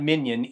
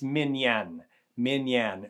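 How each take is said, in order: First: It sounds like the English word minion. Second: It does not sound like the word minion. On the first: The speaker calls it wrong. "It's not minyan, as in a little insignificant person" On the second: The speaker calls it right. "it's minyan"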